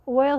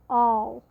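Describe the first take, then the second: First: The word has a standard pronunciation. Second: The word is said like 'all', Oklahoma-style. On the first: "And oil" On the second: "he says all"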